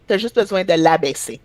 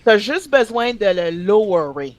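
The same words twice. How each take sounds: First: Said in the usual way. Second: French sentence with "lowerer" Frenchified; French-accented English loanword. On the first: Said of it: "Use your own language". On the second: Retold or imitated. Quoting girl at work, French with Frenchified English verb. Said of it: "That's what she said".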